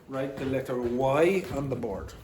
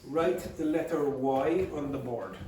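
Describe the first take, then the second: Both takes have the same delivery.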